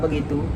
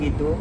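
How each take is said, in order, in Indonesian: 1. Kata itu terdiri dari tiga suku kata, dimulai dengan be. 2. Kata itu terdiri dari dua suku kata, tanpa be.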